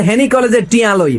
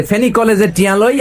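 First: "হেনি" opening on H instead of F, higher; mock Feni slogan, breathe an H into "হেনি"; F becomes H. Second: "ফেনী" opening on a standard F; slogan restated with F in "ফেনী", end rising. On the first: Preacher mimics Feni marchers, "হেনি" with H for F. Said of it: "ফ হইলে এরা বলে হ". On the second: Shown as a demonstration. Preacher explains the slogan to the crowd, "ফেনী" with proper F. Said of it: "মানে ফেনী একটা college আছে".

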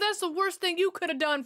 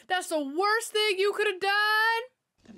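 First: Said in the usual way. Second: "done" drawn out and falling; slow, higher, stretching out "done"; slow emphatic, stress on done. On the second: Real, not acted.

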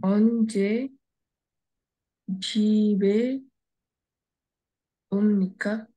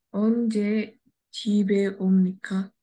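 First: Halting word-by-word reading. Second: Brisk, joined-up reading; faster reading. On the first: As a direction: sound out each word separately. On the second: Student rereading fast for the teacher, quick and connected. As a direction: read it through quickly in one go. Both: Shown as a demonstration. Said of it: "read it fastly again".

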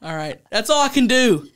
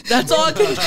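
First: Said in the usual way. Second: High, loud, cracking into laughter; breaking up laughing. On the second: Real, not acted. Host giving up on the sketch, high laughing squeal. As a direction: squeal it as the giggles take over.

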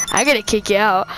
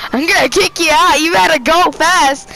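First: Said in the usual way. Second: Louder, higher playful threat; mock threat. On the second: Real, not acted. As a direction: menace him half-jokingly. Threatening teammate in the car.

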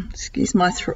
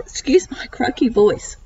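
First: Croaky, whispered after clearing throat; rough, breathless croaky voice; hoarse whisper. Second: Voiced but croaky throat. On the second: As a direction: talk through a croaky throat. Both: Real, not acted.

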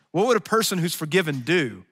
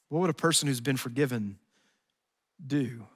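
First: Louder, higher rhetorical question; raised preaching question. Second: Said in the usual way. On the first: Real, not acted. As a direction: fling the question out to the room. Rhetorical question, loud take.

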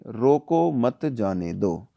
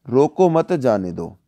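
First: Slow, pause right after रोको, then मत जाने दो together. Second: Slow, रोको मत joined, pause, then जाने दो; pause after मत. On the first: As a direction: break after रोको so it means stop them. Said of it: "पहले में रोक लो, जाने मत दो". (रोको के बाद विराम, धीरे-धीरे) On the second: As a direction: break after मत so it means let them go. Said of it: "दूसरे का मतलब हो गया जाने दो". (मत के बाद विराम, धीरे-धीरे) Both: Shown as a demonstration.

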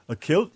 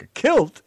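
First: Rising question tune on "A kilt?"; "A kilt?" lifted up at the end like a puzzled question; asked as a question. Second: Imitating the puzzled question, "kilt" rising at the end; mock question. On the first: Real, not acted. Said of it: "You said it as a question, with a question mark". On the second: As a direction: echo "a kilt" the way he asked it, tune lifted. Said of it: "You said it as a question".

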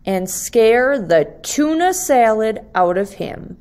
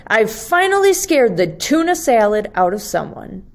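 First: Said in the usual way. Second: Quick, excited "finally" from the little monster; cheering monster. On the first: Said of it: "narration line, later repeated by Leonardo". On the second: Acted. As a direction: rush it out like he finally won. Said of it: "cheered Leonardo".

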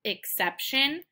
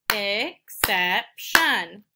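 First: Said in the usual way. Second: "exception" in three slow, separated beats; syllable by syllable. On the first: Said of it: "finding out how many syllables". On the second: Shown as a demonstration. Teacher clapping three syllables, "exception" slowly split up. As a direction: split "exception" as ex, cep, shun. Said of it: "I clap three times".

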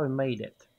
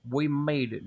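First: Said in the usual way. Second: Put-on Southern twang; triumphant line in a hammed-up Southern accent; mock Southern accent. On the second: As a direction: slip into a playful Southern US accent. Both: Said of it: "Now I've developed another accent".

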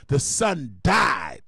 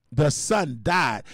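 First: Very slow, weighty; slow solemn. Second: Very slow, weighty; slow solemn repeat. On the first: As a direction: let it land slowly. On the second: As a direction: say it again, heavier. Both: Shown as a demonstration.

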